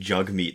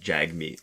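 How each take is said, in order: First: The first vowel sounds like the one in 'jug'. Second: The first vowel sounds like the one in 'jag'. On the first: The speaker calls it right. "it's pronounced m- more like Jugmeet" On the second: The speaker calls it wrong. "than Jagmeet"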